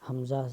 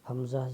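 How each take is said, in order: Both takes have the same delivery.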